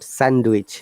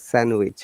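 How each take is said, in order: First: The D sound is pronounced in the word. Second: The D sound is silent in the word. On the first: The speaker calls it wrong. "not sandwich" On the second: The speaker calls it right. "it is sandwich"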